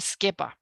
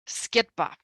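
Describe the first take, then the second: First: The suffix consonant is dropped before the ba. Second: The suffix consonant is pronounced before the ba. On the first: This is how the local speech sounds. "here you say skeba" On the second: This is how the speech of the west sounds. "If you're from Ladakh, you say sketba"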